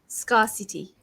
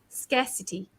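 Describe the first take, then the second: First: It sounds like 'scar' followed by 'city'. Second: It does not sound like 'scar' plus 'city'. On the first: The speaker calls it wrong. "I used to say scarcity, ... I thought it was like scar and then city" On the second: The speaker calls it right. "I'm going to say this correctly now"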